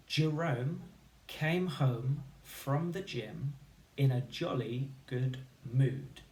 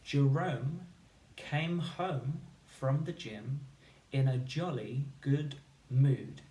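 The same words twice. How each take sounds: First: Slow, deliberate, every word clear; over enunciate for the class; over enunciating. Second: Slow and emphatic, every word clear; over enunciate it again for the class; over enunciating. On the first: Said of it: "my turn first". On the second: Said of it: "One more time". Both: Shown as a demonstration.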